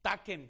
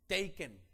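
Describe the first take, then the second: First: "taken" read as Spanish, TAH-ken; Spanish spelling pronunciation. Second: "Taken" said the English way, TAY-ken; English pronunciation. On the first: Preacher jokes to the congregation: "taken" read as spelled in Spanish. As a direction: sound out "taken" letter by letter the Spanish way, /taken/. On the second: Preacher names the film title in English: "Taken" as TAY-ken. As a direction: give "Taken" its English sound, /teiken/. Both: Shown as a demonstration. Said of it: "como escribimos en español".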